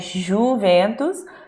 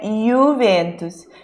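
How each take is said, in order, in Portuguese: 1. O primeiro som é como 'zh' em 'measure'. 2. O primeiro som é como 'y' em 'yes'. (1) "não é Juventus" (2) "é Juventus"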